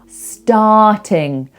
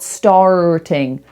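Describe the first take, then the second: First: The first vowel is open with the jaw dropped. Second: The first vowel is closer, with less jaw drop. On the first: The speaker calls it right. "open, jaw down" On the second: The speaker calls it wrong. "not starting"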